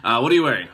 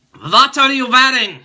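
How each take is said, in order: First: Said in the usual way. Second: Put-on high, loud, accented joke voice; creepy caller voice. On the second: Mock creep asking the viewer what they wear. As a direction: ham it up like a creepy prank caller. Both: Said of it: "No, I'm just kidding".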